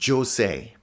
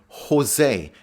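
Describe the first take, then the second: First: Jose is pronounced with an English sound. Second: Jose is pronounced with a Spanish sound. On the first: The speaker calls it wrong. "and not Jose" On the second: The speaker calls it right. "pronounce it the Spanish way, as in Jose"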